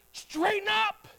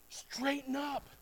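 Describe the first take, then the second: First: Straighten up called high and firm; bold command. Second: Soft echo. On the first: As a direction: throw out Straighten up like an order. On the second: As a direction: drop Straighten up to a quiet aside. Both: Shown as a demonstration. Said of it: "better understanding".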